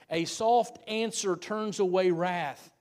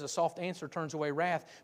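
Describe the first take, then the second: First: It is said more slowly. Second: It is said at a normal pace.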